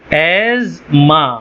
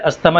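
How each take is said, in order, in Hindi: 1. बीच का हिस्सा z ध्वनि से बोला जाता है। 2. बीच का हिस्सा st ध्वनि से बोला जाता है। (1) "इसकी असल तलफ़ुज़ इसका है एज़मा" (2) "सब इसको अस्थमा बोलते हैं"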